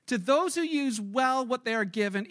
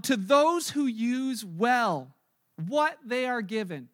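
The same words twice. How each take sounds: First: Said in the usual way. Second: Slow, weighty line with each word set apart; slow emphatic reading. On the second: Shown as a demonstration. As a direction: lay it down slowly, word by word.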